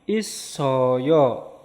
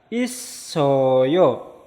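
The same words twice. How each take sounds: No difference in how they are said.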